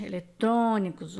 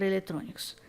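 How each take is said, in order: First: "Eletrônicos" with a strong third syllable, trô; stress on TRÔ. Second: Said in the usual way. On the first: Shown as a demonstration. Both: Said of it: "antepenúltima sílaba forte".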